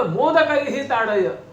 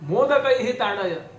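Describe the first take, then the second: The two takes are said the same way.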